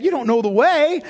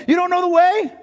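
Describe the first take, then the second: First: Louder, higher, declaring "You don't know the way"; emphatic proclamation. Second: Much higher, louder "You don't know the way", stretching "way"; rising proclamation. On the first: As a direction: proclaim it to reassure Thomas. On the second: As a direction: lift the repeat higher than the first. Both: Acted. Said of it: "Jesus eliminates all of his fears by saying".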